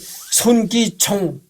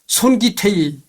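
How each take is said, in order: First: The name ends with a clear final ng sound. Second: The name ends in -tei without the ng sound. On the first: The speaker calls it right. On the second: The speaker calls it wrong.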